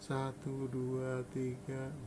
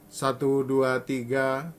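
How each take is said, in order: First: The counting is spoken very softly. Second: The counting is spoken at medium volume. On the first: "Lembut sekali" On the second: "Mungkin ini suara saya sedang"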